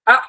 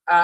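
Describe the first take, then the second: First: "আ" short, high and cut off hard; forceful hamza. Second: Said in the usual way. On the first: Shown as a demonstration. Teacher drills hamza with students, an abrupt, forceful "আ". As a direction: punch "আ" out from the gut. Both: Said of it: "এটা জোরে না বললে".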